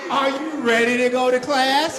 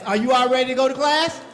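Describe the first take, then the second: First: Louder rallying call, rising at the end; hype shout. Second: Said in the usual way. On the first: Acted. Children's leader shouting to get the kids ready for class.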